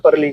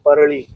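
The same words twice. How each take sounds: First: The name is said without the flapped ड़ sound. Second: The name is said with a flapped ड़ sound. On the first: "Hindi में परली जैसा" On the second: "Marathi में ड़ का उच्चारण होता है"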